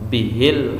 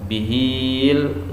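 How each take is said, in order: First: The vowel after the h is short. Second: The vowel after the h is long. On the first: The speaker calls it right. "harus dibaca pen pendek" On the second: The speaker calls it wrong. "nggak boleh dibaca bihil"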